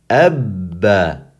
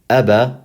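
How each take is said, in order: First: The middle consonant is held long, with a pause. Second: The middle consonant is short, with no hold. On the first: The speaker calls it right. "we're going to say" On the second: The speaker calls it wrong. "Instead of"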